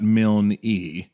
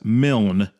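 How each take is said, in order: First: The name ends with an added 'ee' syllable. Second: The name is one syllable with no final vowel. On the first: The speaker calls it wrong. "not Milne-E" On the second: The speaker calls it right. "pronounced as Milne"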